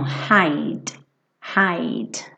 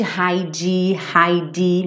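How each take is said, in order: First: "hide" ending on a shut D, no vowel after; slow, low model "hide", closed on the D; closed final D. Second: "hide" with an extra ee after the D; learner's "hai-dee" for "hide"; wrong pronunciation. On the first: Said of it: "o Dzinho fechando esse som". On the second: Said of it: "nada de hide". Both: Shown as a demonstration.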